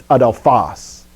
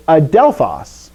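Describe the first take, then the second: First: Adelphos with the stress moved to final PHOS; slow it and land on the end, a-del-PHOS in adelphos; corrected stress. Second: Adelphos with the stress on DEL; common wrong stress. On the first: Shown as a demonstration. Teacher correcting the common mistake, adelphos slowly stressed on the last syllable. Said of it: "It's not, it's adelphos". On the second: Retold or imitated. Teacher quoting a common mistake, adelphos stressed on the second syllable. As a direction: punch the middle syllable of adelphos, a-DEL-phos. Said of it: "if you ever heard people say".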